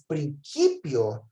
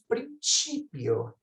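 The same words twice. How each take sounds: First: The c is pronounced like a k. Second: The c is pronounced like ch. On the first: This is the restored classical pronunciation. "o C é som de K" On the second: This is the church pronunciation. "na eclesiástica falamos princípio, que soa muito mais italiano"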